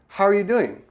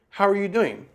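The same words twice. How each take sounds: Both takes have the same delivery.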